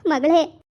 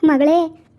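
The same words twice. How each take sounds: First: Said in the usual way. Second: Loud call to a daughter. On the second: Acted. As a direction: call her from across the house. Mother calls her daughter.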